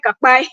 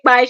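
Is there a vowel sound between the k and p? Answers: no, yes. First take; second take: yes; no. First: A vowel is inserted between the k and p. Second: The k and p are said together, no vowel. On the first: This is how one particular woman says it. "she say kapai" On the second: This is the usual way to say it. "she doesn't say kpai"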